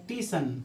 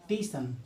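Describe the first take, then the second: Both takes have the same delivery.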